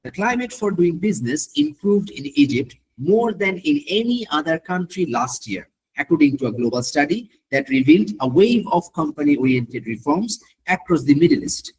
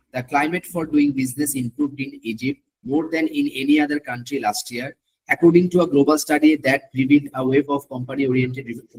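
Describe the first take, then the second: First: Slow reading with natural rises and falls of tone. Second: Slow, monotone read with no rise or fall in tone; flat reading. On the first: Teacher showing students the better way, slow with lively tone. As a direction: give the sentence its natural melody, as if you mean it. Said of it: "একটু tone দিলে ভালো". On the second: Teacher showing students the wrong way, slow and toneless. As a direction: read it flat like a robot, tone switched off. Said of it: "না, flat". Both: Shown as a demonstration.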